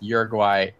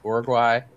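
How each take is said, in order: First: The name is pronounced the English way. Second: The name is pronounced the Spanish way. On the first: This is how English speakers say the name. "it's Uruguay for English speakers" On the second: This is the name in the country's own language. "Is that actual like Spanish name"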